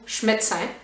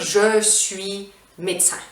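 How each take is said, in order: First: 'Je suis' is squeezed into a single 'ch' sound. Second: Both words of 'je suis' are fully pronounced. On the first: The speaker calls it right. "on va dire" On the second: The speaker calls it wrong. "on ne va pas dire"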